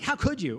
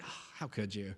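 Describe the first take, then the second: First: It sounds sharp and accusing, almost satisfied. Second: It sounds sad and grieved, disappointed.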